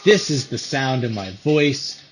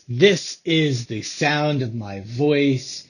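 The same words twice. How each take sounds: First: The voice is heard with background noise playing. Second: The voice is heard without background noise.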